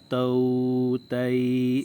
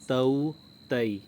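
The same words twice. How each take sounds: First: The vowel sounds are drawn out long. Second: The vowel sounds are short and soft. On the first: The speaker calls it wrong. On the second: The speaker calls it right.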